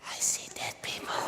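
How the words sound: It is spoken in a hushed whisper. The speaker calls it right. "Do not whisper it like that"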